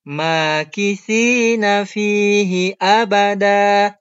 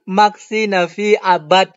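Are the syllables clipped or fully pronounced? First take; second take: full; clipped. First: Every syllable and final vowel is pronounced. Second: Syllables and final vowels are clipped off. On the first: The speaker calls it right. "Ini yang betulnya" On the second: The speaker calls it wrong. "Maksi Nafi abad katanya"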